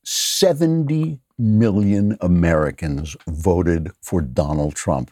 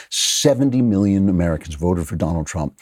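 First: Each word slowed and weighted, seventy stressed; grave, deliberate slowdown on the point; slow emphatic. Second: Said in the usual way. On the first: Real, not acted. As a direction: drive home "Seventy million Americans voted" slowly. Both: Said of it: "there's one part of this that isn't funny".

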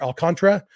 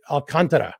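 First: Alcantara with the last two syllables blurred into one; syllables run together. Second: Alcantara in four clear syllables, stress on con; correct pronunciation. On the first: Host showing his old slurred Alcantara, syllables run together. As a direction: say Alcantara quickly, squashing the ending together. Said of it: "running the last two syllables together, saying more". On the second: Host correcting his take on the pitcher's name, stress on con. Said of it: "it should be". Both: Shown as a demonstration.

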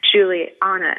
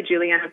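First: Juliana said in a northern US accent; the host's own northern Juliana, said casually. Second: Juliana said the proper way, as her name is really said; proper pronunciation. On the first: Host greets guest in her northern accent. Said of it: "that's just my northern accent in there". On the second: Host corrects her guest's name to proper pronunciation. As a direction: correct herself: the real Juliana. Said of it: "which is really Juliana". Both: Shown as a demonstration.

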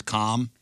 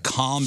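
First: "calm" with an Ozark vowel; Ozark accent. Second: Said in the usual way. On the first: Shown as a demonstration. Host demonstrating Ozark vowels, Ozark accent. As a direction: give "calm" the Ozark pronunciation. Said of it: "Like, calm becomes calm". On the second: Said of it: "calm becomes calm".

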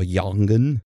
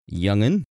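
First: "Youngin" with an open ah vowel; alternative pronunciation attempt. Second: "Youngin" with a short uh vowel; first pronunciation attempt. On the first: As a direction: say "Youngin" like "yahng-in". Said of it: "I'm sure that's not how you pronounce it". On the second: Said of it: "I'm just gonna say Youngin". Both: Shown as a demonstration.

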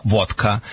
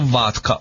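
First: Vodka with a rounded AW; corrected vowel. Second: Vodka with an open AH; uncorrected vowel. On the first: Dog wizard fixing his slip, vodka said VAWT-ka. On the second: Dog wizard slipping on the name, vodka said VAHT-ka. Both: Real, not acted. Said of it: "the right name is vodka".

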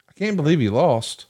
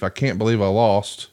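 First: Higher-pitched mock disbelief; imitated crowd disbelief. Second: Understated mock disbelief; imitated disbelief. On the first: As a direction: voice the stunned fans' reaction, pitched up. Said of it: "eighty thousand people thought the same thing". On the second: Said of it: "convalescing in disbelief".

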